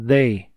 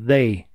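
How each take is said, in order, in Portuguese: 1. Começa com um som de th suave. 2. Começa com um som de th suave.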